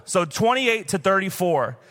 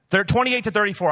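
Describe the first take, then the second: First: Twenty-eight stressed and drawn out slowly; slow emphatic repeat. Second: Said in the usual way. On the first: Shown as a demonstration. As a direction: spell out twenty-eight to thirty-four slowly, each number weighted. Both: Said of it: "I know you guys are having a hard time".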